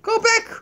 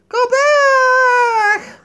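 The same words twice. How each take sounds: First: Said in the usual way. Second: High, loud wailing shout. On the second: Pretend. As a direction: wail it at the sky.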